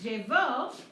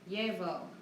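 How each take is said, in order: First: The stress is on the last syllable. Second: The stress is on the first syllable. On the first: Someone else wore it in the past. "I'm using past tense, third person singular" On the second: I wear it habitually now. "yo llevo una camiseta cuando hace calor"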